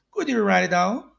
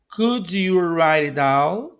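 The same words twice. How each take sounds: First: Said in the usual way. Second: Could you write it down, slow and drawn out; slow model. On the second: Shown as a demonstration. Teacher modelling a question for learners, slowly. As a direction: space out each word for learners.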